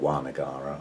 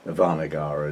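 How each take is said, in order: First: The name starts with a W sound. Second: The name starts with a V sound. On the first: "spelled with a W" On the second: "I say it with a V"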